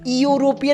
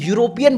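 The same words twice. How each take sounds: First: The word begins with a plain vowel sound. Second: The word begins with a y sound. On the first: The speaker calls it wrong. "यूरोपियन नहीं बोलते हो" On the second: The speaker calls it right. "तुम यूरोपियन बोलते हो ... यूरोपियन में वाई यू sound आता है"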